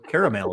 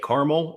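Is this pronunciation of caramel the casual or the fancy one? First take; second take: fancy; casual. First: The word is said the fancier, more elaborate way. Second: The word is said the everyday, casual way.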